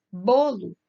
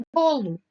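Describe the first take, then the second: First: Bolo with a firm, stressed first syllable. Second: Said in the usual way. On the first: Shown as a demonstration. Teacher showing the prominent syllable, Bolo with stressed "Bo". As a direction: lean on the "Bo" of Bolo. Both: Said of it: "O bo se destaca na palavra bolo".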